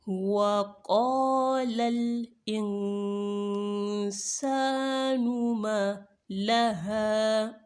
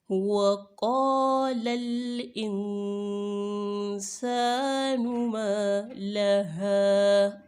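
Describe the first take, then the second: Both takes have the same delivery.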